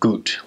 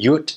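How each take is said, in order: First: It is said in standard German, starting with a G. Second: It is said in Kölsch, starting with a Y sound.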